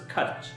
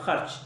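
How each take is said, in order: First: It begins with a plain, hard k sound. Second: It begins with a throaty, raspy kh sound. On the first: This is the Hindi pronunciation. "And in Hindi it's pronounced as kharch" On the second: This is the Urdu pronunciation. "like in Urdu we have kharch"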